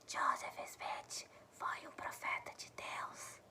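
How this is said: The sentence is whispered. "outra forma que a gente pode falar é sussurrando"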